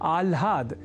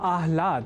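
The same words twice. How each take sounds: First: The l sound comes before the h. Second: The h sound comes before the l. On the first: The speaker calls it wrong. "इस स्वरूप में न समझकर या न लिखकर" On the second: The speaker calls it right. "पहले ह और बाद में ल"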